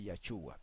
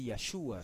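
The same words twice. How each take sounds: First: The middle consonant is a 'ch' sound. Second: The middle consonant is a 'sh' sound. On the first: The speaker calls it wrong. "no saben pronunciar la SH como la pronuncian los americanos" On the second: The speaker calls it right. "existe la SH y se puede leer Yachúa sin ningún problema"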